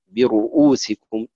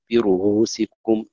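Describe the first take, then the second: First: "برؤوسكم" recited slowly, hamza eased, as /biruusikum/; first take of a hamza word. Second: "برؤوسكم" recited slowly with a light h-like break, /iruhusikum/; second take of a hamza word. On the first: Teacher recites "برؤوسكم" to students with the hamza softened, slowly. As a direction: ease the hamza in "برؤوسكم", gliding straight from ru to usikum. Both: Shown as a demonstration. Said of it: "مثلًا".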